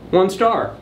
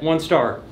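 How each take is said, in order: First: Star stressed with a falling tune. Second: One stressed, star falling away. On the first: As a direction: lean on the word star. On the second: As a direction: lean on the word One. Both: Shown as a demonstration.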